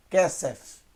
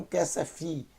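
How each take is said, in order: First: "Kesef" ending on a bare F, no vowel after it; correct closed ending. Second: "Kesefi" with an added i after the f; wrong final vowel. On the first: Teacher correcting the reading, "Kesef" closed on a plain f. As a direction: stop "Kesef" on the f, two syllables only. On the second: Teacher showing what the word is not, "Kesefi" with extra final i. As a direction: end "Kesefi" on a voiced EE syllable. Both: Shown as a demonstration. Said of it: "não Kesefi".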